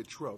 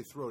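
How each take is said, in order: First: "tro" with an aspirated t, no th; "tro" said the neighborhood way. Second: Said in the usual way. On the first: Shown as a demonstration. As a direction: swap th for a hard t in "tro". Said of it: "they say tro". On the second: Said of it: "They say throw".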